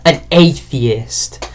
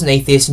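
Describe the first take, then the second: First: Drawn-out, slow mock of "an atheist"; mocking echo. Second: Said in the usual way. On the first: Real, not acted. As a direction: echo it slowly, mock-impressed. Mocks the line just read.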